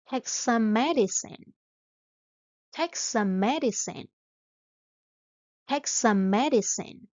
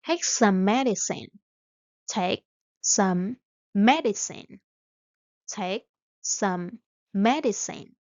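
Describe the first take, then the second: No difference in how they are said.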